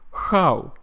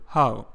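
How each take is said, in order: First: Russian-accented "how" starting with kh. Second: Said in the usual way. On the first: Shown as a demonstration. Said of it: "A Russian person would say". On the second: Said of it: "instead of how".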